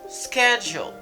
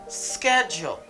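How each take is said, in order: First: The word begins with an sk sound. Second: The same.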